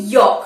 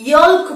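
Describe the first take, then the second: First: Loud ইয়ক with no L; correct pronunciation. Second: Loud ইয়ল্ক with the L sounded; wrong pronunciation. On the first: Teacher answering what we will say, correct pronunciation. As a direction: punch out ইয়ক, L silent. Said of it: "একে আমরা কি বলবো?". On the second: Teacher saying what must not be said, wrong pronunciation. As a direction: read ইয়ল্ক as spelt, L and all. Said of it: "ইয়ল্ক বলা যাবে না". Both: Shown as a demonstration.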